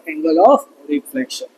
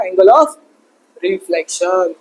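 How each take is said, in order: First: Very slow, lower, teasingly stretched "Angle of reflection"; mock drawn-out answer. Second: Said in the usual way. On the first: Shown as a demonstration. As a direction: drag out "Angle of reflection" like a joke. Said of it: "मजाक कर रहा था". (धीमे, खींचकर मज़ाकिया अंदाज़ में) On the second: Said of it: "Angle of incident किसके बराबर है?".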